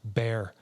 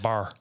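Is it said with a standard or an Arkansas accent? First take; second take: standard; Arkansas. First: The word is said in a standard accent. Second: The word is said in an Arkansas accent.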